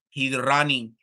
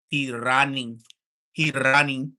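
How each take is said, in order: First: A hint of a Russian accent on "He's running"; flat, blunt Russian-accented "He's running"; mock Russian accent. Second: Put-on louder Russian-accented "He running" said twice; hammed-up Russian accent, blunt and heavy; mock Russian accent. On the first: Joking about a Russian fighter, in mock Russian accent. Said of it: "say it like that 'cause it sound worse". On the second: Mocking a fighter who runs, in mock Russian accent. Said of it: "I'ma take my Russian accent".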